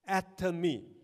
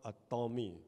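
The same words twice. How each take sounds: First: The name begins like the word atom. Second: The name begins like the words a Tom. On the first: The speaker calls it right. "So it's atom me" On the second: The speaker calls it wrong. "it is not a Tom"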